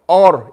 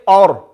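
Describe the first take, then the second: First: The opening vowel is heavy and rounded. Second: The same.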